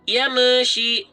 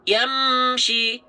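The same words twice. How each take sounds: First: The m bounces with an extra vowel after it. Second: The m is said cleanly with no added vowel. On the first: The speaker calls it wrong. "Contoh yang mantul ... Meshi ada me-nya salah" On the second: The speaker calls it right. "kita baca terang dan jelas. Oke, seperti ini"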